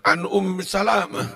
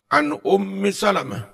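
First: Salamah is stressed on its second syllable. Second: Salamah is stressed on its first syllable. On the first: The speaker calls it wrong. "Kalau membacanya keliru" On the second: The speaker calls it right. "terus kalau kayak begini"

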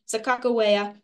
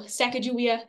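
First: The middle consonant is a hard 'g/k' sound. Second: The middle consonant is a soft 'j' sound. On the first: The name means bird woman. "bird woman" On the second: The name means boat launcher or burden bag. "maybe boat launcher, or it is her burden bag"

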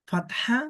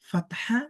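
The two takes are said the same way.

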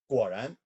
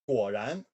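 First: The word is spoken fast. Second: The word is spoken at medium speed.

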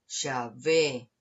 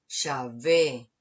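No difference in how they are said.

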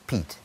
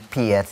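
First: The name is said like 'Pete'. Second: The name is said differently from 'Pete'. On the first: The speaker calls it right. "and I think it's Pete" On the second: The speaker calls it wrong. "So I kept calling him Piet"

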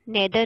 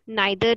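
First: The first vowel sounds like 'eh'. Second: The first vowel sounds like 'eye'. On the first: "नेदर नहीं बोलना" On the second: "इसको नाइदर नहीं बोलना"

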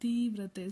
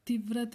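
First: The first vowel is long. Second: The first vowel is short. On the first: The speaker calls it right. "So ದೀರ್ಘ ಬರಿಬೇಕು" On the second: The speaker calls it wrong. "ತಿ ತೀವ್ರತೆ ಅಂತ ಹೇಳಿಲ್ಲ"

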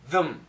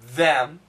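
First: The word is said short with a schwa vowel. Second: The word is said fully with a clear vowel. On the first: "We can say it short. It's actually a schwa sound" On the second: "We can say perfectly them"

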